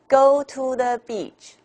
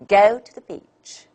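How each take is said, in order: First: All syllables are said with even strength. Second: The first and last stand out; middle weak. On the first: The speaker calls it wrong. "Chinese. This is Chinese" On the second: The speaker calls it right. "The English way is"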